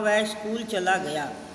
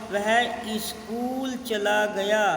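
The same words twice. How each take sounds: First: 'Skool' starts directly with the s sound. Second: An extra vowel is added before 'skool'. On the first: The speaker calls it right. "शुद्ध में हुआ" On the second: The speaker calls it wrong. "अशुद्ध में हुआ"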